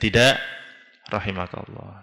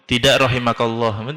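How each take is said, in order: First: A pause separates the first word from the rest. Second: The words run straight on without a pause. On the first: No thanks, and may God have mercy on you. The speaker calls it right. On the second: May God not have mercy on you. The speaker calls it wrong. "Kalau langsung"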